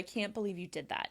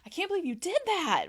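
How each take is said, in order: First: It sounds disappointed and disapproving. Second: It sounds surprised. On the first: The speaker disapproves of what was done. "It shows that kind of disappointment, disapproval" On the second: The speaker is astonished by what happened. "That can be more surprise"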